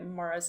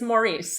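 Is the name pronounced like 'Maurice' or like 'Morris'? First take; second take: Morris; Maurice. First: The name is pronounced like 'Morris'. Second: The name is pronounced like 'Maurice'. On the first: This is how English speakers say the name. The speaker calls it wrong. "they English pronounce it like that" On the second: This is how the name is written and meant to be read. The speaker calls it right. "it's Maurice, and you read it as Maurice"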